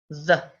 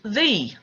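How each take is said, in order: First: The vowel is a short, weak uh sound. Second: The vowel is a long ee sound. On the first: The next word begins with a consonant. "When the word after the begins with a consonant, people use the" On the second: The next word begins with a vowel sound. "When the word after the begins with a vowel sound, people use the"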